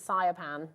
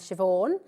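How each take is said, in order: First: The name sounds like sigh-a-pan. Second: The name sounds like shiv-awn. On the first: The speaker calls it wrong. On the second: The speaker calls it right.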